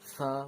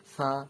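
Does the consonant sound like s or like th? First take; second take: th; th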